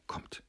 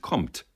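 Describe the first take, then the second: First: Very soft summons; hushed instruction; whisper. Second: Firm, voiced order; short imperative; commanding. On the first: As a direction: whisper it to draw her away. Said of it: "flüsterte er". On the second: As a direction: order her out firmly. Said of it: "wiederholte er befehlend". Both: A narrator's reading.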